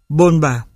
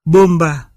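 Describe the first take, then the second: First: "bonba" with n before the b; tongue-tip n in "bonba" in place of m; dissimilated N. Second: Said in the usual way. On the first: Shown as a demonstration. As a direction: say "bonba" with n, lips open until b. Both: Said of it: "chuyển thành N".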